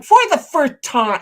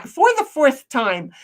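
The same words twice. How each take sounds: First: "fourth" said as "furth"; mispronounced fourth. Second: Said in the usual way. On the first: Retold or imitated. Streamer reads Snipe's chat message aloud, "fourth" mispronounced as "furth".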